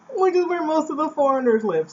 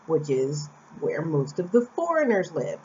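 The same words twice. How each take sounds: First: Higher, pointed repeat of which is where most of the foreigners live. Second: Said in the usual way. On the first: Shown as a demonstration. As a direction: say it again higher with emphasis. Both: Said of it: "repeated line".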